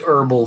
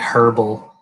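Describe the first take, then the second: First: It is said in his usual, non-English accent. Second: It is said in a put-on English accent.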